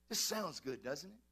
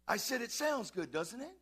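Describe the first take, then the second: First: Said in the usual way. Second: "sounds good" pushed higher and louder, "doesn't it" rising; insistent repeat. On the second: Real, not acted. Pastor prompting the congregation to answer "sounds good", insistent. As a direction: press "sounds good" harder, lift "it" for an answer.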